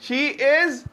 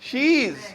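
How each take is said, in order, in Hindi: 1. दोनों शब्द पूरे और अलग-अलग बोले जाते हैं। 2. दोनों शब्द जुड़कर एक ही सिलेबल बन जाते हैं।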